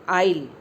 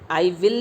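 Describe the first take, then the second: First: One short contracted syllable without the w. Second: Two full words with the w sound. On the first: The speaker calls it right. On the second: The speaker calls it wrong. "आई विल नहीं बोलेंगे"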